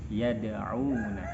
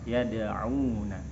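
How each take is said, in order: The two takes are said the same way.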